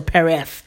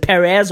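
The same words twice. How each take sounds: First: Perez ending in a th sound; lisped z. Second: Said in the usual way. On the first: Shown as a demonstration. Unsure of the Spanish president's name, Perez said with final th. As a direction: say Perez as "Pereth", Spanish style. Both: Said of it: "Is it Perez or Perez?".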